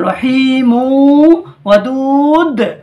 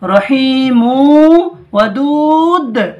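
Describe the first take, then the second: First: The last word ends with a bouncing 'd'. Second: The last word ends with a bouncing 'd'.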